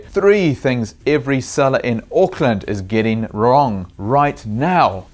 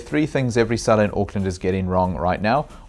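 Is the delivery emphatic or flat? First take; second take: emphatic; flat. First: It is said with strong emphasis on words. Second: It is said flatly, with no strong emphasis. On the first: "really putting emphasis on the word" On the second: "you can always just say"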